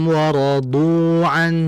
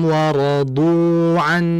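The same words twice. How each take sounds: No difference in how they are said.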